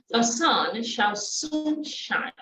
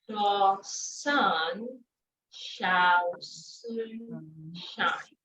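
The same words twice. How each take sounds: First: The phrase is said quickly, at full speed. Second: The phrase is said slowly, word by word. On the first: "And then faster" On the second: "Break it down"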